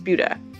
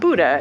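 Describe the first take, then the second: First: The name is pronounced as the local town name. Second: The name is pronounced like the word Buddha. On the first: The speaker calls it right. "It's Buda" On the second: The speaker calls it wrong. "It's not Buddha"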